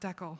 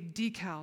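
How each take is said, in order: First: Decal is said the way the family says it. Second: Decal is said the way locals there say it. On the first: This is how the family from across the border says it. "not decal" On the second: This is how people in the Seattle area say it. "you guys say decal"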